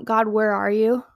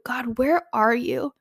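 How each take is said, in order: First: An abandoned, accusing "God, where are you?"; accusing, doubting tone. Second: Slow, hopeful, searching "God, where are you?"; searching, trusting tone. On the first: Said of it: "change our tone from". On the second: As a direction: ask "God, where are you?" slowly, really looking for him. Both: Shown as a demonstration.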